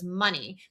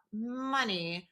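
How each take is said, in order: First: Said in the usual way. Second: Soft, drawn-out, doubtful echo; trailing softly into doubt; unconvinced. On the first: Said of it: "[name] answers". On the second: Retold or imitated. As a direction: repeat it slowly without really believing it. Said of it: "he doesn't really believe it".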